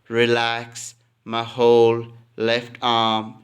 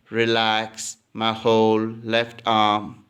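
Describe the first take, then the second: No difference in how they are said.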